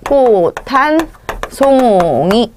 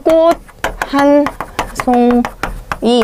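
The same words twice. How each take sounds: First: The t and h merge into an aspirated t. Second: A plain t stops before a separate h. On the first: "디귿과 히읗이 합해지면서" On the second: "디귿으로 바뀌죠"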